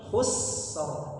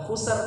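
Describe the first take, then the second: First: The s sound is held long before r. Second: The s sound is cut short before r. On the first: The speaker calls it right. "tapi khusr ya. Dialirkan suara huruf sin" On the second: The speaker calls it wrong. "Bukan khusr"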